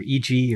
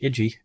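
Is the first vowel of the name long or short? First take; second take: long; short. First: The first vowel of the name is long. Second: The first vowel of the name is short. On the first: "E G with a long I" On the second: "I think it's Iggy"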